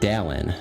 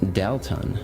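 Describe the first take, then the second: First: The T sound in the middle is dropped. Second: The T sound in the middle is stressed. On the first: The boy is saying his own name. "He says Dallin, no T" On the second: The ghost is calling the boy's name. "always emphasizes the T. It's like Dalton"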